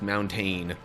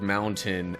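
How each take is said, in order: First: The second syllable has a full, stressed vowel. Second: The second syllable has a weak, reduced vowel.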